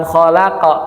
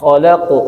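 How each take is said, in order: First: "khalaqa" bouncing into a full a; wrong khalaqa. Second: "khalaqu" with a thick slanted qaf; correct khalaqu. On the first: Teacher showing students the wrong bounce. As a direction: open the qaf into a plain "qa". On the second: Teacher giving students the right bounce. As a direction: keep the qaf thick toward u. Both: Shown as a demonstration. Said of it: "bukan khalaqa".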